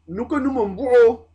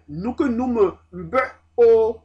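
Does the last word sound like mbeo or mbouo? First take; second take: mbouo; mbeo. First: The last word is linked, sounding like mbouo. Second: The last word is unlinked, sounding like mbeo. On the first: This is the connected-speech reading. "Avec la liaison, la prononciation change" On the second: This is the normal citation reading. "Mais normalement, c'est"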